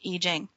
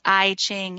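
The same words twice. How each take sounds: First: The name is said the Chinese way. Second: The name is said the English way. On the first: "the Chinese pronounce it I Ching" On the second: "It's spelled I Ching in English"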